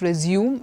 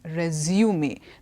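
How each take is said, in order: First: It is said with the verb pronunciation. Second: It is said with the noun pronunciation. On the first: The speaker calls it wrong. "It's not resume" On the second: The speaker calls it right. "it is resume"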